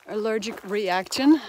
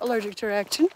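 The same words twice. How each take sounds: First: The words are carefully and clearly enunciated. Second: The words are slurred together unclearly. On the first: The speaker calls it right. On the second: The speaker calls it wrong.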